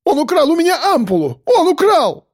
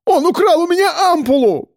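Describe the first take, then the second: First: Shrill accusing shriek. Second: Much higher shrieking accusation; panicked yell. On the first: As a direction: screech the accusation in panic. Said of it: "взвизгнул, закричал". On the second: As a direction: screech it to the guards. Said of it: "взывал". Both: A narrator's reading.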